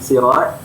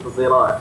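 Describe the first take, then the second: First: The word begins with a plain s sound. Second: The word begins with a z-like sound. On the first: "perkataan as-sirat dan sirat" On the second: "dibaca dengan ismam sad tu kepada huruf uh, zai"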